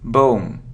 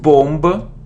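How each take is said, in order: First: The word ends on the M sound. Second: A B sound is heard after the M. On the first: The speaker calls it right. "so it's bomb" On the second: The speaker calls it wrong. "It isn't bomb"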